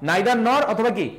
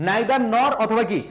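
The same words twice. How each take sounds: No difference in how they are said.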